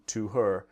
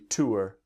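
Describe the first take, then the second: First: The h in 'her' is clearly pronounced. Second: The h in 'her' is dropped entirely.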